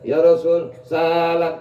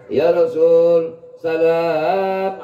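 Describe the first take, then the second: First: The first syllable of salam is drawn out. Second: The second syllable of salam is drawn out. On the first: The speaker calls it wrong. "itu salah" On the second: The speaker calls it right. "salamnya panjangin, bukan sinnya dipanjangin"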